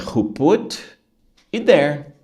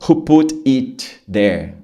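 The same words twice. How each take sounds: First: The word 'it' is tiny and barely heard. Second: The word 'it' is pronounced fully and clearly. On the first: The speaker calls it right. "Você escuta" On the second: The speaker calls it wrong. "O cara não fala ... isso não é natural"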